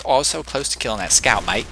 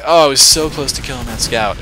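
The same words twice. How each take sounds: First: Rough attempt at an Australian accent; amateur mock Australian. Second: Said in the usual way. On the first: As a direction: put on a hammy Australian voice. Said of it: "say it with an Australian accent". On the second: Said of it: "he's gonna be like".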